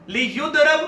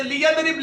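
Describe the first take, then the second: First: لیضرب said "li-yudrab"; passive-voice pronunciation. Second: لیضرب said "li-yadrib"; active-voice pronunciation. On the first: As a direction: say لیضرب with "u" after y, "a" before b. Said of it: "اگر فعل امر مجہول سے لے آئیں". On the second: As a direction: say لیضرب with "a" after y, "i" before b. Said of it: "فعل امر غائب و متکلم معروف کا". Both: Shown as a demonstration.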